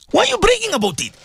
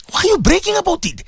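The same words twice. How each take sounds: First: Fast, high repeated challenge; faster rebuke. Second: Raised, high challenge; high rebuke. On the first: Preacher pressing the bragging donors again, fast and high. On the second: Preacher rebuking listeners who brag about giving, high challenge. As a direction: call the braggart out. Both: Real, not acted.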